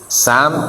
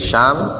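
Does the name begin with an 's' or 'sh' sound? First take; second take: s; sh. First: The name begins with an 's' sound. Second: The name begins with a 'sh' sound. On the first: The speaker calls it right. "tapi pakai sin" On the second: The speaker calls it wrong. "bukan Syam"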